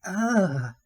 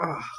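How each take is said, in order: First: High, drawn-out imitated moan; mock sexual moan. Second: Short demonstrated groan of pain. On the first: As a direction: mimic her suggestive "ah". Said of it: "she was moaning again". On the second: Shown as a demonstration. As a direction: act out hurting on "ah". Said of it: "in a more painful way".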